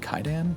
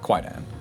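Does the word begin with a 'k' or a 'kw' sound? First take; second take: k; kw. First: It begins with a plain k sound. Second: It begins with a kw sound. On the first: "I think it's technically Kaidan" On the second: "but like Kwaidan"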